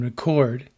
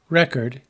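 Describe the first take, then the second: First: The stress falls where the verb puts it. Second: The stress falls where the noun puts it. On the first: It names an action. "The same pattern holds" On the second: It names a thing. "The same pattern holds"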